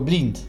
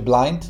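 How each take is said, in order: First: The vowel sounds like 'ee', as it's spelled. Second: The vowel sounds like 'eye', the English way. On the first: "tylko blind. Tak jak się pisze" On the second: "nie mówiło się blind"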